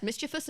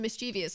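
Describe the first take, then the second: First: "mischievous" as MIS-chi-vus; correct pronunciation. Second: "mischievous" as mis-CHEE-vee-us; common mispronunciation. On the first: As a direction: say "mischievous" in three syllables, stressed up front. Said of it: "it's annoying". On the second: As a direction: say "mischievous" in four syllables with an extra ee. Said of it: "just this one". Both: Shown as a demonstration.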